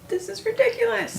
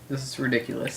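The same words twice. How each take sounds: First: It is said in a put-on commercial voice. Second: It is said in his normal voice.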